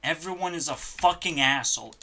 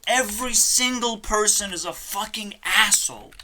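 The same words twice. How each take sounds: First: Said in the usual way. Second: Angrier repeat. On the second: Real, not acted. Repeats rant, second louder.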